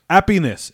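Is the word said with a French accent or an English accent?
French. It is said with a French accent, no H.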